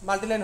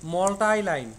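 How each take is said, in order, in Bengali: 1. প্রথম শব্দটি 'ee' শব্দে শেষ হয়। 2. প্রথম শব্দটি 'eye' শব্দে শেষ হয়।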